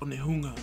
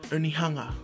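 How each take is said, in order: First: It is said with a Maori pronunciation. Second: It is said with an anglicized pronunciation. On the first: The speaker calls it right. "it's actually pronounced Onehunga" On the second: The speaker calls it wrong. "I've mispronounced place names"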